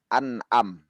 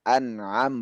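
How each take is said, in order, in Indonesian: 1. Ada hamzah yang tajam di tengah. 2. Ada bunyi ain dari tenggorokan di tengah. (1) "bukan an'am" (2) "an'am bukan an'am"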